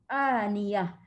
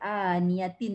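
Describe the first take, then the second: First: The word ends with an h sound. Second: The word ends with a t sound and vowel. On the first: The reader stops on this word. "waqaf pada tam marbutah automatik bertukar menjadi huruf ha" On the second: The reader continues past this word. "barisnya dia memang bunyi huruf ta lah"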